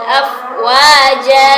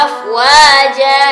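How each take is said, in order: No difference in how they are said.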